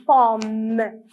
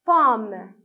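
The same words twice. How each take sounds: First: "Pomme" with a long hummed M; "Pomme" slowly, holding the final mmm and releasing it; M sound drawn out. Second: Said in the usual way. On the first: Shown as a demonstration. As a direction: stretch "Pomme" so the M rings out. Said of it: "On entend le son M". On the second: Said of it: "C'est une".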